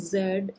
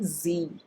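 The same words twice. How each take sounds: First: The letter is said the Indian way, zed. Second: The letter is said the American way, zee.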